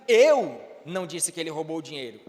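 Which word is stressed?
eu. The stress falls on the word eu. Someone else said it. "então quem foi que disse se não foi você?"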